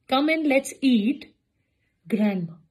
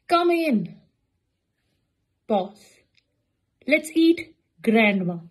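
First: There is a pause after 'eat'. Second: There is a pause after 'come in'. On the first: Grandma is being invited to eat. The speaker calls it right. "जिन लोगों ने ईट के बाद लगाया वो correct था" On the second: Grandma is the one being eaten. The speaker calls it wrong. "कम इन pause"

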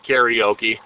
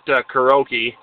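First: It is said with the common, widespread pronunciation. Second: It is said with a Minnesota pronunciation. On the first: "the rest of the world calls it karaoke" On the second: "we don't pronounce it that way in Minnesota. It's we just call it karaoke"

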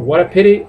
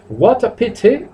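First: It is said in an American accent. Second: It is said in a British accent. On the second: "británico"

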